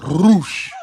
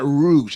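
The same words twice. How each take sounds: First: The R at the start is rolled. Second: The R at the start is plain. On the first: The speaker calls it right. "you gotta roll the R" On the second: The speaker calls it wrong. "It's not Roosh"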